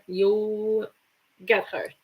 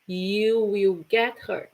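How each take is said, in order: First: The words 'you will' are joined into one. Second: The words 'you will' are said separately. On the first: "when you use the contraction, you put them together"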